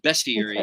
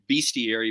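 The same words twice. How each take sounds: First: The first syllable sounds like the word 'best'. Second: The first syllable does not sound like 'best'. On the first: The speaker calls it right. "like you word you say the word best" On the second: The speaker calls it wrong. "I'd always been pronouncing it bestiary"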